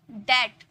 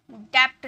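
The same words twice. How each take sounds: First: "डेट" with no b; silent B. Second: "डेप्थ" with a stop before t; sounded B. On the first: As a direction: model "डेट" as det. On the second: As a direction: wrongly voice the b as in "डेप्थ". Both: Shown as a demonstration. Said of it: "डेप्थ नहीं बोलना है".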